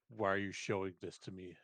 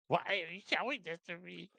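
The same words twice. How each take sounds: First: It is said in a normal-pitched voice. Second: It is said in a high, helium-like voice.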